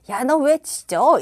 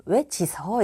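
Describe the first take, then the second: First: 짖어 said with a clear ㅈ linking into the vowel, as 지저; careful standard reading of 짖어, slow and loud; correct pronunciation. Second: 짖어 said with a plain s-sound, as 지서; wrong reading of 짖어 sliding to 지서; mispronunciation. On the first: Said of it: "이렇게 읽어야 될 것을". (짖어를 표준 발음 지저로 또박또박) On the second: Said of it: "이렇게 읽는 분도 있더라고요". (짖어를 지서로 잘못 읽듯) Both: Shown as a demonstration.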